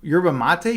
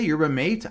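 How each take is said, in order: First: "Yerba mate" with mate said "mah-teh", questioning rise; puzzled first try at "Yerba mate" as "mah-teh"; Spanish-style pronunciation. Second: "Yerba mate" with mate said like "mate", rising; puzzled retry of "Yerba mate" rhyming with "late"; English pronunciation. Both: Shown as a demonstration. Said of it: "I don't know what yerba mate is".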